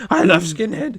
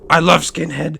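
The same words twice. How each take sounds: First: The woman mimicked in an altered voice on the repeat; imitating her, repeated. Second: Mildly louder quoted woman, first take; a light imitation of her saying it plainly; imitating her. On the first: Narrator mimics the older woman at the bar in a put-on voice. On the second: The woman at the bar, lightly imitated, saying it the first time. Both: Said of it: "And she's like".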